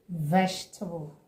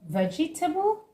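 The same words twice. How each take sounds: First: The word is said with three syllables. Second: The word is said with four full syllables. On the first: The speaker calls it right. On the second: The speaker calls it wrong.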